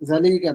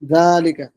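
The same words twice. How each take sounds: First: The stress falls later, not on the first syllable. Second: The first syllable is drawn out and stressed. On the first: The speaker calls it wrong. "জালিকা না" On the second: The speaker calls it right. "আর এই টানটা হবে জায়ের মধ্যে"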